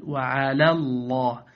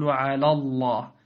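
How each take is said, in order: First: Slow "وعلى الله", thin l in "وعلى" before the heavy name; light lam. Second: "وعلى الله" with dark l in "وعلى"; wrongly heavy lam. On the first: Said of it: "بل". (ترقيق لام "وعلى") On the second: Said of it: "فلا تقل". (تفخيم لام "وعلى") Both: Shown as a demonstration.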